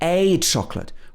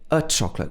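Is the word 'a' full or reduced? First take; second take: full; reduced. First: The word 'a' is stressed, a full vowel. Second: The word 'a' is unstressed, a weak 'uh'. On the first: The speaker calls it right. "we want to emphasize this word. So we say" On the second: The speaker calls it wrong. "We don't say"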